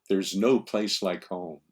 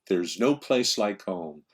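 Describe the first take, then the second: Both takes have the same delivery.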